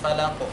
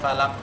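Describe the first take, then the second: First: The final q ends with an audible echoing bounce. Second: The final q stops flat with no bounce. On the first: The speaker calls it right. "Jadi harus falaq" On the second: The speaker calls it wrong. "nanti akan menghilangkan sifat tersebut"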